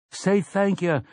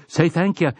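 First: Crowd reply. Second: Fierce call. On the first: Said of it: "they replied". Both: A narrator's reading.

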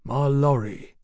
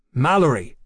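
First: "My lorry" read as two separate words; puzzled misreading. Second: "Mallory" as one name, stressed on the first syllable; corrected name. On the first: A narrator's reading. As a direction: sound out "My lorry" uncertainly, splitting the name. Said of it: "puzzled painfully over the title". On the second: Acted. Mallory corrects his misread name.

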